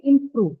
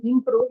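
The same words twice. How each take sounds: First: "improve" with an aspirated p. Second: "improve" with an unaspirated p. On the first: Teacher showing students the rule, aspirated p in "improve". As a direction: let a puff of air out on the p of "improve". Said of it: "with an aspiration, aspirated per". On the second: Teacher showing students what to avoid, unaspirated p in "improve". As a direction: say "improve" with no puff of air on the p. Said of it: "rather than saying improve". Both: Shown as a demonstration.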